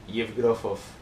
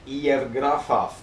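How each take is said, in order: First: The final syllable is said with light emphasis. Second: The final syllable is said with strong emphasis. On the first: The speaker calls it right. "not as much enthusiasm on the last O" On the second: The speaker calls it wrong. "Did I pronounce that right?"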